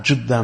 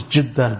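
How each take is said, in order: First: "Jeddah" with a short u, Juddah; dhamma pronunciation. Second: "Jeddah" with a short i, Jiddah; kasra pronunciation. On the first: Lecturer shows the second form, "Jeddah" said with a u. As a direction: say "Jeddah" as JUD-dah. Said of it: "pronounce them with a dhamma". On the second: Lecturer answers the objection, "Jeddah" said with an i. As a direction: say "Jeddah" as JID-dah. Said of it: "or the kasra". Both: Shown as a demonstration.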